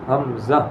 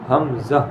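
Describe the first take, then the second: No difference in how they are said.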